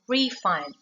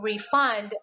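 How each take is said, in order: First: The stress is on the first syllable. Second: The stress is on the second syllable. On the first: It is used as a noun. "a noun with two syllables always stress to the first" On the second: It is used as a verb. "for the verb with two syllables, the stress is on the second"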